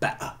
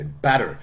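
First: The t is replaced by a glottal stop. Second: The t is a soft flap between vowels. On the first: "than better" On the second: "Because American, you would say better"

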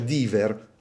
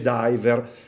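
First: The word is read with Italian sounds. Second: The word is said with English sounds. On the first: The speaker calls it wrong. "uno mi pronuncia diver all'italiana, maccheronico" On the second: The speaker calls it right. "gli dico si dice diver"

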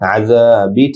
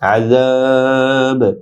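First: The word ends with a short vowel after b. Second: The word ends on b after a lengthened vowel. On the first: The recitation continues without stopping. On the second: The recitation stops on this word.

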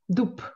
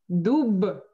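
First: The word ends in a voiceless p sound. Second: The word ends in a voiced b sound. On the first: This is how the word is actually spoken. "но говорю дуб" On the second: This is how the word is written. "Я пишу дуб"

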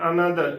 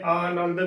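First: The middle syllable has a nasal n sound. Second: The first vowel is long, like aa. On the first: "ਟਿੱਪੀ ਦੇ ਨਾਲ ਉਚਾਰਨ ਕਰ ਦਿੰਦੀਆਂ ਨੇ" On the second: "ਕੰਨਾ ਵੀ ਲਗਾ ਦਿੰਦੇ ਨੇ"

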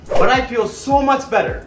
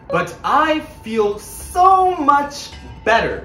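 First: The words are linked together smoothly. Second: The words are said separately without linking.

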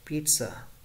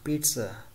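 Both takes have the same delivery.

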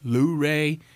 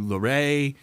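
First: It is said in a local rural accent. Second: It is said in a standard accent.

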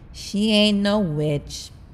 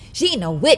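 First: It is said in a disappointed tone. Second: It is said in a neutral tone.

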